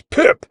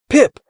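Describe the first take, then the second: First: Mildly boomed name; booming. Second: Short call of a name. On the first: Gear echoes the boy's call, booming. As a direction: boom out the one word. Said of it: "boomed out". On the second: Boy spots his friend on glider, calling. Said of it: "Jax called". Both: A narrator's reading.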